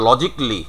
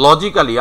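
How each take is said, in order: First: "logically" as LOJIK-lee; "logically" ending in "jik-li"; appropriate "logically". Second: "logically" as loji-kaa-li; every written syllable of "logically" sounded; local "logically". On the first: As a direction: say "logically" in three syllables without "ca". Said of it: "appropriate pronunciation". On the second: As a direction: say "logically" with a full "kaa" before "li". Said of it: "আমরা বলি". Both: Shown as a demonstration.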